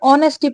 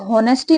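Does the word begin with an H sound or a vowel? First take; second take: vowel; H sound. First: The word begins directly with a vowel. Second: The word begins with an H sound. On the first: The speaker calls it right. "इसमें एच silent होता है, इसे ऑनेस्टी पढ़ते हैं" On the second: The speaker calls it wrong. "इसको होनेस्टी नहीं पढ़ते हैं"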